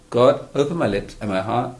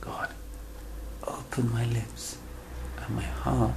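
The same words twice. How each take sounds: First: It is said quickly and mechanically, without feeling. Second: It is said slowly and earnestly, with feeling. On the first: The words are recited without real intention. The speaker calls it wrong. "And I go like that" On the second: The words are meant sincerely, as if speaking to someone. The speaker calls it right. "And we say it with intention"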